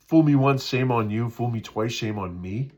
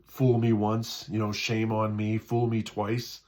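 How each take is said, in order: First: "Fool me once" called out loud; loud proverb. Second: Said in the usual way. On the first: Shown as a demonstration. Pastor correcting the proverb, loudly. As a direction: belt the saying. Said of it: "corrected proverb, louder". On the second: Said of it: "restarted saying correctly".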